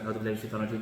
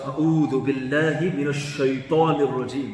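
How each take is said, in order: First: It is said quickly and flatly, without feeling. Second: It is said with a meaningful, expressive tone.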